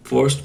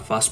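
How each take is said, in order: First: ফার্স্ট with a rounded central vowel, "forst"; correct pronunciation. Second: ফার্স্ট with an open "a", like "fast"; incorrect pronunciation. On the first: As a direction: say ফার্স্ট as "furst", not "fast". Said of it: "প্রনাউন্সিয়েশনটা correct". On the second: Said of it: "প্রনাউন্সিয়েশনটা actually correct না". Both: Shown as a demonstration.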